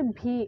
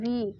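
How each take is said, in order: First: It starts with a breathy b-like sound. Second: It starts with a clear v sound. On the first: The speaker calls it wrong. "It's not भी" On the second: The speaker calls it right. "It's a वी"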